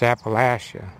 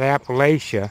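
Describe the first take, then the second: First: The middle syllable has a short 'a' sound. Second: The middle syllable has a long 'ay' sound. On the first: The speaker calls it right. "get the sound of the rat in there. It's Atcha" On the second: The speaker calls it wrong. "It's not Appalachia"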